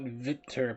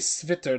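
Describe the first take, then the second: First: The word begins directly with a V sound. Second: The word begins with an S sound before the V. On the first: The speaker calls it wrong. "not Vitter" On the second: The speaker calls it right. "So it should be Svitter"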